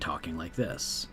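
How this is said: The voice is relaxed, low and creaky. "Vocal fry. It's vocal fry. ... It drops the tone a little bit"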